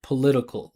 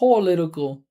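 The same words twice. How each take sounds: First: The first syllable is reduced to a schwa. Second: The first syllable is full and stressed. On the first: The speaker calls it right. "we would just say p p p p p with a schwa political like that" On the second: The speaker calls it wrong. "you hear how she's saying Paul, that's that's giving a lot of attention"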